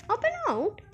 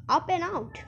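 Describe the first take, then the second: First: "Up and out?" pitched high in puzzlement; puzzled question. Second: Said in the usual way. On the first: A narrator's reading. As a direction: lift "Up and out?" into a baffled question. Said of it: "thought Charlie". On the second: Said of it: "It said".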